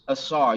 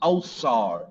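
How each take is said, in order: First: The name begins with an open 'ah' vowel. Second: The name begins with a rounded 'oh' vowel. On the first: This is how the name is said in the African language. "you hear in the African language Asar" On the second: This is how the Greeks said the name. "the Greeks pronounce stuff a little differently, so it becomes Osar"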